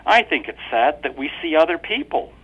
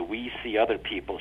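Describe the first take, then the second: First: Higher, sweetly pointed wife; wife's voice. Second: Said in the usual way. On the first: A narrator's reading. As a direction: lean on it innocently. Wife's line.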